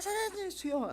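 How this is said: It is said in a very high, shrill voice. The speaker calls it right. "아주 하이 보이스, 소프라노를 넘은 뭐 하이 하이 소프라노, 이런 소리로 이걸 한 겁니다"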